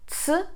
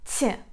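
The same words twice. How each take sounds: First: The consonant is said hard, without softening. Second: The consonant is said soft, with softening. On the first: "Hard one is T" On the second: "soft one is T"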